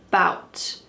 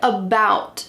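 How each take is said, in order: First: The first vowel is dropped entirely. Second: The first vowel is pronounced in full.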